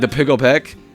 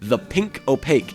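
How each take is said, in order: First: The words are mumbled and slurred together. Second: Each word is carefully and clearly enunciated. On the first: The actors mumble the title in dialogue. The speaker calls it wrong. "they like slur the, the title together" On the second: The title takes effort to say properly. The speaker calls it right. "a very specific way that you have to enunciate that title"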